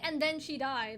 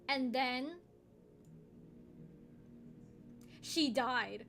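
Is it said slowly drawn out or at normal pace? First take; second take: normal pace; slowly drawn. First: It is said plainly at normal pace. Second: It is said slowly, drawn out with pauses.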